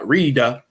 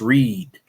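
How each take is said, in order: First: An extra vowel sounds after the final D. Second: The word ends on the D, no vowel. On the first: The speaker calls it wrong. "it's not Rida" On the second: The speaker calls it right. "it's just read"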